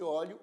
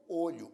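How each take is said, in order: First: "óleo" with an open first o, as in "ó"; open-vowel pronunciation. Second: "olho" with a closed first o, as in "ô"; closed-vowel pronunciation. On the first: Teacher showing students the verb, open-o "óleo". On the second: Teacher showing students the noun, closed-o "olho". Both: Shown as a demonstration. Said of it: "pronunciadas de formas diferentes".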